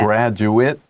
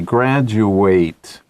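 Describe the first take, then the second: First: The last syllable is a short 'it' sound. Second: The last syllable is a full 'ate' sound. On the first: It names a person who has finished a course. "that's a noun" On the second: It is the action of finishing a course. "Same word, different uh, pronunciation"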